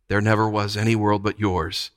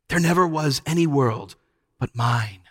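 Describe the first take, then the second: First: Subdued, level submission; enchanted echo. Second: Lulling witch. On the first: Children yielding to the witch, dully enchanted. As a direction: parrot it as if spellbound. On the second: Witch claiming hers is the only world, crooning. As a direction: croon it with possessive certainty. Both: A narrator's reading.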